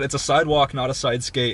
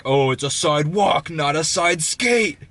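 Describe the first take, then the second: First: Said in the usual way. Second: Slow, drawn-out, higher-pitched mock outrage; mock angry retort. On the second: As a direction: hammer it out as the indignant man. Angry man's line, acted out.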